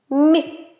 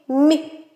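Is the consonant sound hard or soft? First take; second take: soft; soft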